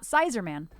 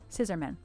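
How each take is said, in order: First: The first syllable sounds like 'size'. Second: The first syllable sounds like 'sis'. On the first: The speaker calls it wrong. "Not Sizerman" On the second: The speaker calls it right. "Like scissors"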